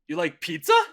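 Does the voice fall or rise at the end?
rise. The voice rises at the end. It is a question.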